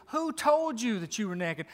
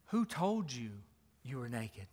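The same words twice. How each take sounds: First: A firm, steady question, not hushed. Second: A soft, hushed question, fading away. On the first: God pressing the man about who told him, firmly. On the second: God gently asking the ashamed man, softly. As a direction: ask it gently, almost under the breath. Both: Acted.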